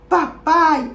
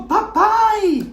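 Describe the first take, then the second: First: Said in the usual way. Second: Put-on papai lifted high and bright, child calling; a granddaughter hugs her father's neck: a high delighted papai; child's happy cry.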